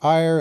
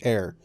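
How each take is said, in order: First: The word sounds like 'ire', rhyming with fire. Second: The word sounds like 'air', rhyming with care. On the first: The speaker calls it wrong. "which I used to say as ire" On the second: The speaker calls it right. "I know it's pronounced air"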